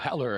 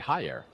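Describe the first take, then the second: First: The double L sounds like an English L. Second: The double L sounds like a Y. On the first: The speaker calls it wrong. "I'm missing my Spanish pronunciation there" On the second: The speaker calls it right. "That should be Hayer with the double L's"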